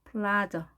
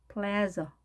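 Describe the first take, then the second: First: 플라저 as PLAH-zuh; English AH version. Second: 플레저 as PLA-zuh; English 에 version. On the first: Teacher contrasting two options, 플라저 as PLAH-zuh. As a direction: say 플라저 with clear L and long AH. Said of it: "프라자와는 완전히 다르죠". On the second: Teacher contrasting two options, 플레저 as PLA-zuh. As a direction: say 플레저 with the vowel of cat. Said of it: "에 발음을 해서". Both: Shown as a demonstration.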